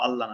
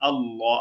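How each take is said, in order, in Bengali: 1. L ধ্বনিটি পাতলা ও হালকা করে পড়তে হয়। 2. L ধ্বনিটি মোটা ও ভারী করে পড়তে হয়। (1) "আল্লাহ না" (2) "লামটা মোটা করে পড়তে হয়"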